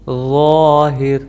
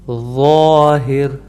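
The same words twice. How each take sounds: The two takes are said the same way.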